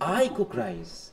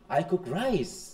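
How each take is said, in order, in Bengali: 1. জোর পড়েছে 'I' শব্দে। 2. জোর পড়েছে 'rice' শব্দে। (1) "আমি" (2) "রাইসের উপর"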